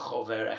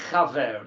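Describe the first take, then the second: First: The first vowel is a rounded oh sound. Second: The first vowel is an open ah sound. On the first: The speaker calls it wrong. "not a chover" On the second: The speaker calls it right. "a chaver, not a chover, a chaver"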